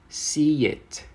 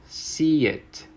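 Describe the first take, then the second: Both takes have the same delivery.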